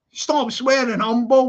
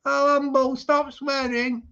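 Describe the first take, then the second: First: Higher-pitched demo of putting your foot down; firm telling-off. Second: Slow, higher-pitched mock Scouse; failed stab at a Scouse accent; attempted Scouse. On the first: Shown as a demonstration. Streamer showing how Expo should have told Humble, firm telling-off. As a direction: stamp your authority on it. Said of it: "like that, like you should do". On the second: Streamer mimicking Expo telling Humble off, attempted Scouse. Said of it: "I'll try and do a Scouse voice".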